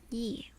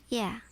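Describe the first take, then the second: First: It is said like the word ye. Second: It is said like the word yeah. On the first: "It is ye, right?" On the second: "I keep pronouncing it as yeah"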